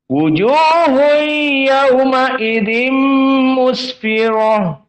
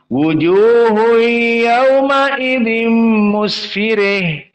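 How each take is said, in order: First: The r is heavy and the word ends in -ah. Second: The r is light and the word ends in -ih. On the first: This is one traditional reading of the verse. "Hafs an Asim ra-nya mufakhamah" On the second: This is another traditional reading of the verse. "qiraah al-Kisai karena dia al-imalah al-kubra maka ra menjadi tarqiq"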